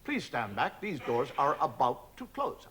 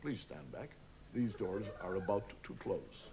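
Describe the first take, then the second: First: Lift announcement. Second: Softer, slow, laid-back American lift voice; casual American lift. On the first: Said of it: "So it's a". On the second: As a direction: drawl it like a relaxed American lift. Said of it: "it does it much more casual". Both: Retold or imitated.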